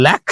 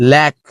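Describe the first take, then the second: First: ল্যাক ending in a puff of air, the wrong way; aspirated final k. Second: ল্যাক ending with no puff; unaspirated final k. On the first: Teacher shows the wrong aspirated ending. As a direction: blow air at the end of ল্যাক. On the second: Teacher gives the right ending of ল্যাক. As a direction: close ল্যাক without air. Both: Shown as a demonstration. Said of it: "এরকম বলি না".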